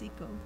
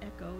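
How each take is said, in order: First: It begins like the word eek. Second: It begins like the word echo. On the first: The speaker calls it right. "it's eco" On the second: The speaker calls it wrong. "it's not echo"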